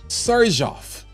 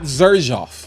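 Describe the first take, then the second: First: The name begins with an S sound. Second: The name begins with a Z sound. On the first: The speaker calls it right. "we learned what the correct pronunciation is" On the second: The speaker calls it wrong. "we just been pronouncing it like that X is like xylophone"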